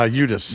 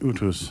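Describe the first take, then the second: First: The middle consonant is a D sound. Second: The middle consonant is a T sound. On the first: This is how the name is said now. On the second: This is the traditional Norwegian form of the name.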